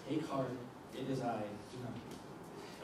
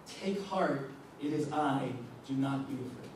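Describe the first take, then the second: First: Much softer and lower, nearly breathed; hushed reassurance. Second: Said in the usual way. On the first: Shown as a demonstration. Jesus comforting terrified disciples in the storm, hushed and gentle. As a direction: say it gently, as if calming someone scared.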